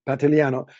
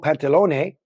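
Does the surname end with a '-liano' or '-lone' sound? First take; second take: -liano; -lone. First: The surname ends with a '-liano' sound. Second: The surname ends with a '-lone' sound. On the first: The speaker calls it right. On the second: The speaker calls it wrong.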